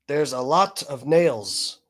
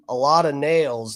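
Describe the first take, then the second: First: Slowly, "lot" with a crisp, released T; overpronounced T's. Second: Said in the usual way. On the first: Retold or imitated. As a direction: hit a hard T at the end of "lot". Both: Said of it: "overpronounce their T's".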